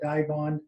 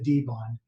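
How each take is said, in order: First: The first syllable sounds like 'die'. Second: The first syllable sounds like 'dee'. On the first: This is how most of the market says the name. "a lot of people in the market have called it" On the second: This is how the maker says the name. "there is a uh, pronunciation that we typically use"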